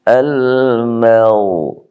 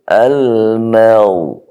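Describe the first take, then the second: The two takes are said the same way.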